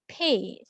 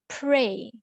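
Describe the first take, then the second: First: No 'r' sound follows the 'p'. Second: An 'r' sound follows the 'p'. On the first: "She pronounced it as pay. So there are sound omitted" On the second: "and also the word pray"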